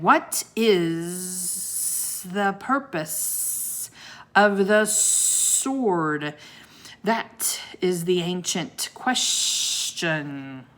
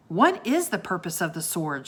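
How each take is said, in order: First: Very slow, deep booming monster; low, deep voice. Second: Said in the usual way. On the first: A narrator's reading. Sea serpent asks the ancient question, slow and deep. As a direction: drawl the riddle like an ancient beast. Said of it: "In a low, deep voice". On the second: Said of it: "she asked".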